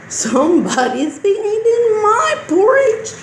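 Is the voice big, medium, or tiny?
medium. It is said in a medium-sized voice. "in a medium-sized voice"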